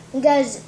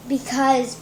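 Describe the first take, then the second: No difference in how they are said.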